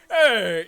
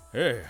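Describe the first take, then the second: First: It is said in an excited, energetic way. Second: It is said in a tired, drained way.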